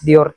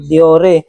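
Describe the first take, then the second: First: The name is read with English letter sounds. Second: The name is read with Tagalog letter sounds. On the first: "Pero sa English, Dior talaga yan" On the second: "kung babasahin natin sa Tagalog"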